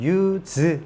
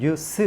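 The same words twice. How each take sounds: First: The word ends with a buzzing z sound. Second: The word ends with a hissing s sound. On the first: It is used as a verb. "동사로 쓸 때는 use 이렇게 발음하고" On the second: It is used as a noun. "명사로 쓸 때는 use 이렇게 발음하죠"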